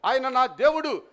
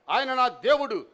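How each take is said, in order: Both takes have the same delivery.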